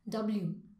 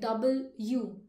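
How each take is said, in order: First: The two parts are run together smoothly. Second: The two parts are said separately. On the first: The speaker calls it right. "say together" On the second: The speaker calls it wrong. "do not say it separate like double U"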